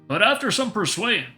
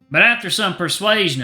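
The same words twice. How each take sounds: First: It is spoken without a Southern accent. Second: It is spoken with a Southern accent. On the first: The speaker calls it wrong. "I think I'm doing the wrong voice for Dave" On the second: The speaker calls it right. "Southern Chester"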